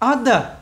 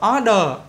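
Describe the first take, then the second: First: The final syllable is light, with the tongue raised. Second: The final syllable is heavy, with a full vowel. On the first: The speaker calls it right. "đưa cái đầu lưỡi lên vòm họng các bạn" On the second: The speaker calls it wrong. "nếu mà các bạn đọc là order, order, order thì người ta không hiểu"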